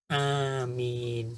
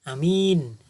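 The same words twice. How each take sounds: First: The first vowel is long, the second long. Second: The first vowel is short, the second long. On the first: It means may God grant it. "Jadi A-nya panjang, min-nya juga panjang" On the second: It means trustworthy. "Jadi A-nya pendek, M-nya panjang"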